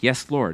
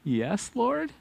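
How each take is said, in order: First: It sounds willing and sure. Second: It sounds doubtful and questioning.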